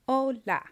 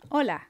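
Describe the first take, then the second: First: The word is said slowly and carefully. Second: The word is said at normal speed. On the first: "then I'll say it slower" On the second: "I'm going to go ahead and say the words"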